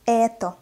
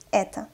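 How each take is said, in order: First: "Это" slowly with a full final O; slow, articulated reading. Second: "Это" quickly, final O reduced to A; fast, natural reading. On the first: Teacher models for learners, "Это" slow with a clear O. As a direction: spell out "Это" in two held syllables. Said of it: "what is articulated pronunciation". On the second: Teacher reads as a native, "Это" fast with O as A. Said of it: "I pronounced the letter O as A". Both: Shown as a demonstration.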